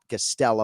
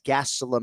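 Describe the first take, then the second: First: The stress is on a later syllable. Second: The stress is on the first syllable.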